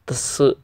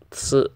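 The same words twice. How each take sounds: First: The syllable begins with a ts sound. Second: The syllable begins with a ts sound.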